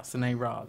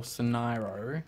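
First: "Soneira" ending on an A sound; name ending in A. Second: "Soneiro" ending on an O sound; name ending in O. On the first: Correcting the new character's name, "Soneira" ending in "ah". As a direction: say "Soneira" with a final "ah". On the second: Unsure how the new character's name goes, "Soneiro" ending in "oh". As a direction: say "Soneiro" with a final "oh". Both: Shown as a demonstration. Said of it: "There's an A. I keep going O".

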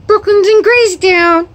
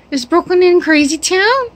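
First: High, loud excited announcement about CRAZY TOWN; gleeful high-pitched pet talk. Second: High question with TOWN rising at the end; high-pitched pet talk, TOWN lifted as a question; excited question. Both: Real, not acted.

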